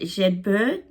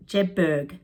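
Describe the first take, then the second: First: Jedburgh with a questioning rise. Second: Jedburgh with a falling, settled tune. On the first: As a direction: say Jedburgh as if checking the name. Unsure of the place name, asking. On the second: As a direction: answer your own question with Jedburgh. Repeats the name as an answer. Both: Real, not acted.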